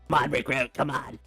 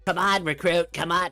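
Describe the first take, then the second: First: It is said in a croaky, frog-like put-on voice. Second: It is said in a plain, natural voice.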